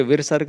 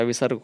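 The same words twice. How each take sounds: First: विसर्ग with an extra r, "virsarg"; wrong form. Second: विसर्ग as "visarg", no r before s; correct form. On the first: Teacher rejecting a misspelling, विसर्ग said as "virsarg". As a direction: slip an r in before the s of विसर्ग. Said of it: "विसर्ग नहीं होता". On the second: Teacher giving the correction, विसर्ग said as "visarg". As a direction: go straight from vi to sarg in विसर्ग. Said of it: "विसर्ग होता है". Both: Shown as a demonstration.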